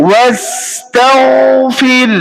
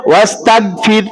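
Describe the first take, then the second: First: ওয়াস্তাগফির with a full, raised heavy gh, slowly chanted higher; correct pronunciation. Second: ওয়াস্তাগফির with a weak গ and the tongue root not raised; wrong pronunciation. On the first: Teacher giving students the correct ওয়াস্তাগফির, slow chant. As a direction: intone ওয়াস্তাগফির slowly with the tongue root raised on gh. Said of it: "তবে আপনার গইনটা পরিপূর্ণ হবে।". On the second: Teacher showing students the faulty ওয়াস্তাগফির. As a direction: say ওয়াস্তাগফির carelessly, without a full heavy gh. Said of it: "কেমন হবে?". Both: Shown as a demonstration.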